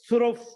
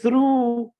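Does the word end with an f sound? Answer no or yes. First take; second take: yes; no. First: The word ends with an f sound. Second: The word ends in a vowel, no f. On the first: The speaker calls it wrong. "We can't pronounce it with f ... it will be very difficult" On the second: The speaker calls it right. "it's easy"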